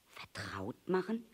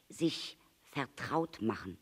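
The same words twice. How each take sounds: First: Hushed, rising VERTRAUT MACHEN; questioning echo. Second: Said in the usual way. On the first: A narrator's reading. Little prince echoes "vertraut machen" back, hushed question. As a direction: repeat "vertraut machen" softly as a question, lifting at the end.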